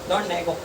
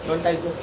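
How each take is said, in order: No difference in how they are said.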